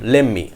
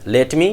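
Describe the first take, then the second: First: "Let me" as "lemme", t turned to m; reduced form. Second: "let me" with the t sounded; full form. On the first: Teacher shows T becoming M, reduced. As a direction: hold the m in "Let me". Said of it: "T becomes to M". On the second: Teacher gives the original phrase, full. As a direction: separate "let" and "me". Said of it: "comes to lemmi". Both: Shown as a demonstration.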